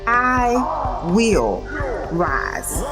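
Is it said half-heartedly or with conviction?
half-heartedly. It is said flatly, without conviction.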